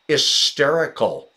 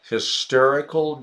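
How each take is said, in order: First: The opening H sound is dropped. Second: The opening H sound is pronounced. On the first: "then the H of hysterical wouldn't be sounded" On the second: "Because we say the H"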